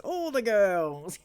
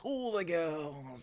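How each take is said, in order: First: Put-on All the girls slow and rising, higher and louder; hammed-up tease on All the girls; teasing. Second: Put-on knowing tease on All the girls; teasing. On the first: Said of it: "repeats louder". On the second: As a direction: drawl All the girls softly. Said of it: "repeats with stress". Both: Shown as a demonstration.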